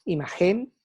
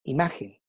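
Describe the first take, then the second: First: "imagen" stressed on the last syllable, i-ma-GEN; wrong final stress. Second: "imagen" stressed on the middle syllable, i-MA-gen; correct penultimate stress. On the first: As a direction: say "imagen" as imaGÉN, leaning on the end. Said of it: "no decimos imagen". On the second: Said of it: "el énfasis de la sílaba está en la penúltima". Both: Shown as a demonstration.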